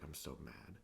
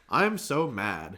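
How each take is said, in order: First: It is mumbled quietly, as if to oneself. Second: It is read out loud in an announcing way. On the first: The speaker calls it right. "he would just kind of mumble it to himself" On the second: The speaker calls it wrong. "where he was like announcing it"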